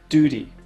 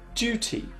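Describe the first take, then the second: First: It is said with an American accent. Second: It is said with a British accent.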